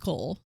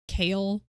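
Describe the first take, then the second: First: The name rhymes with 'goal'. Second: The name rhymes with 'mail'. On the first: This is the speaker's own habitual pronunciation. "That's not how I pronounce it" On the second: This is the intended pronunciation. "I know his name is supposed to be pronounced Kale"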